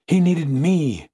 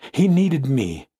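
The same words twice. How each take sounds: First: Slow, high anguished insistence; intensified grief. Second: Higher, grieving insistence; impassioned grief. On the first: Fiancée insisting the dead man needed her, anguished. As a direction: draw it out higher, more desperate. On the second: Fiancée mourning her lost love, impassioned grief. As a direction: plead it with rising feeling. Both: A narrator's reading.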